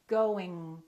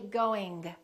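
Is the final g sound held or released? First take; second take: held; released. First: The final g is held without release. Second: The final g is clearly released. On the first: The speaker calls it right. "Don't release it" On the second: The speaker calls it wrong. "Don't say going"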